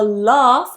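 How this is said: It is said in a southern English accent.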